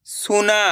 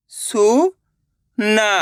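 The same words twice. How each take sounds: First: Said in the usual way. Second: सुना as two slow, separate syllables. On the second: Shown as a demonstration. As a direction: sound out सुना with a gap in the middle. (सुना को एक-एक अक्षर अलग करके) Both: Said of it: "एक अक्षर का उच्चारण करके".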